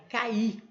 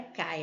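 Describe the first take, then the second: First: "cair" split ca-ir with stress on the i and final r; correct way, two syllables. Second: "cai" said as one syllable, ai glided together; wrong way, one syllable. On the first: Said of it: "não é cai, é cair". ("cair" em duas sílabas, ca-IR, com i tônico) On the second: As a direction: say "cai" run together, no final r. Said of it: "não é cai". ("cai" numa sílaba só, sem o r) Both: Shown as a demonstration.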